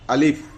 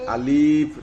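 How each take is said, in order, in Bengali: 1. শব্দটি ছোট করে বলা হয়, টানা হয় না। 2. শব্দটি টেনে লম্বা করে বলা হয়।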